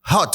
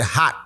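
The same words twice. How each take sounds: First: Said in the usual way. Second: "hot" said like "hat", final T dropped; "hot" with an open "ah" and no clear T; American pronunciation. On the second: Shown as a demonstration. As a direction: say "hot" as an American "hah", swallowing the T. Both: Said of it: "ntimi pronounce T".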